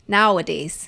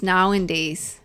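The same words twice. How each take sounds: First: "nowadays" said as now-uh-days; lower, put a plain "uh" in the middle of "nowadays"; corrected pronunciation. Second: "nowadays" said as now-in-days; slipped pronunciation. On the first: Speaker correcting herself, "nowadays" said as now-uh-days. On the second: Speaker on kids today, "nowadays" slipped into now-in-days. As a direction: slip an "in" into the middle of "nowadays". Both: Real, not acted. Slip, then corrects own word.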